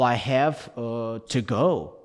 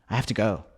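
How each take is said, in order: First: There is a pause between have and to. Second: Have and to are joined without a pause. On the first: The speaker calls it wrong. "you can't pause between" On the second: The speaker calls it right. "you've got to say I have to"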